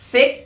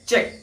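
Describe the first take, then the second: First: The first sound is not an affricate. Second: The first sound is an affricate. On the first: The speaker calls it wrong. "চেক নহয়" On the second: The speaker calls it right. "Actual যোনটো RP pronunciation, it is check"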